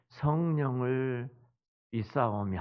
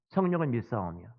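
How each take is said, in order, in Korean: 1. 이 구절은 느리게, 약 삼 초에 걸쳐 말해요. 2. 이 구절은 빠르게, 약 일 초 만에 말해요. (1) "천천히 말한다면 삼 초 걸리" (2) "일 초도 안 걸려요"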